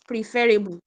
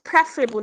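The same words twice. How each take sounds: First: "preferable" said as pree-FER-i-bul; mispronunciation of preferable. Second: "preferable" stressed on the first syllable, PREF-ruh-bul; correct pronunciation of preferable. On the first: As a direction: stress the second syllable of "preferable", pree-FER. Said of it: "not preferable". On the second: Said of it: "The word is pronounced preferable". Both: Shown as a demonstration.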